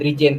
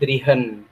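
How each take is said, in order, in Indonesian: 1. Konsonan tengahnya bunyi j. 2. Konsonan tengahnya bunyi h. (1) "bukan dirijen" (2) "tapi drihen"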